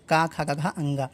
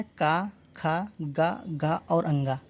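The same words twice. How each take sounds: First: Said in the usual way. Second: Each syllable slow and spaced, का, खा, गा, घा, अंगा; slow syllable drill. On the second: Shown as a demonstration. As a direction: spell out the sounds one at a time, very slowly. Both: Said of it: "का वर्ग में क्या आता है?".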